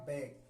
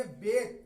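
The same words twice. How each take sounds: First: बैक with a wide, open vowel; reading of back. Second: बेक pitched up, with a clear long 'e'; correct reading of bake. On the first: Teacher recalls back to contrast with bake, open-vowel reading. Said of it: "वहां पढ़ा था". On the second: Teacher contrasts bake with back, correct reading. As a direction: say बेक with a long closed 'ay' vowel. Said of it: "तो यहां पढ़ेंगे". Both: Shown as a demonstration.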